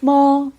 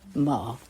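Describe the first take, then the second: First: The pitch stays high and level. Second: The pitch dips low, then rises.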